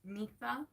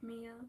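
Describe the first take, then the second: First: The name is said like 'Mitha'. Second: The name is said like 'Mia'. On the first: The speaker calls it right. "It's Mitha" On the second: The speaker calls it wrong. "you don't pronounce my name like Mia"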